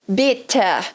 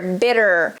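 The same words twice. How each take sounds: First: The middle T is a strong, crisp T. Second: The middle T is a quick R-like flap. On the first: This is a more British pronunciation. "um T forte, ... pronúncia mais British" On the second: This is a more American pronunciation. "essa forma que eu falo aqui é o R na ponta da língua"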